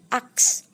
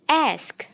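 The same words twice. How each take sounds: First: The K sound comes before the S sound. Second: The S sound comes before the K sound. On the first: The speaker calls it wrong. "Biasanya seperti itu pengucapannya" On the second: The speaker calls it right. "Ternyata yang benar adalah ask"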